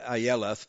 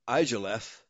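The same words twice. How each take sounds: First: The name is said with a Y sound. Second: The name is said with a J sound. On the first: The speaker calls it right. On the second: The speaker calls it wrong.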